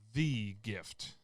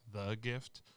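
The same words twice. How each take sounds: First: The word 'the' is said emphatically. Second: The word 'the' is said plainly. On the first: "I used the for emphasis" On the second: "instead of like"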